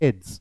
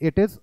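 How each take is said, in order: First: It is said as one contracted syllable. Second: It is said as two full words. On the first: "क्योंकि ये contracted form में है" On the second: "जब आप इसकी pronunciation करोगे तो आप इसकी करोगे इट इज"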